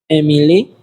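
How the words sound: It is said with Spanish vowels and rhythm. "In Spanish, it will be Emily"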